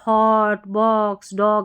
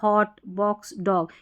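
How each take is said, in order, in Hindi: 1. यह स्वर एक लंबी गोल ध्वनि है। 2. यह स्वर एक छोटी खुली ध्वनि है। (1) "ऐसे नहीं" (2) "ओ का उच्चारण शॉर्ट अ"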